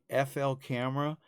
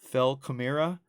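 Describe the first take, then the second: First: The letters F and L are spelled out separately. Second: F and L blend into one syllable, "fel". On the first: The speaker calls it right. "Taking F L camera" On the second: The speaker calls it wrong. "turning it into Fel Camera"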